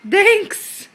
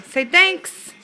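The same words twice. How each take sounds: First: High, bright sing-song model word. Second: Said in the usual way. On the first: Shown as a demonstration.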